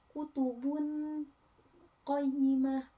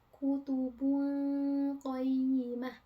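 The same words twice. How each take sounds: First: The n is pronounced clearly and distinctly. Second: The n blends into a nasal hum. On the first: "Kan kalau dibacanya huruf izhar kayak gitu" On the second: "Jadi dengung"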